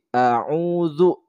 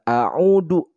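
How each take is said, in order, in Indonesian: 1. Konsonan terakhir adalah bunyi dh yang lembut. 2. Konsonan terakhir adalah bunyi d biasa. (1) "tapi a'udzu" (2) "bukan a'udu"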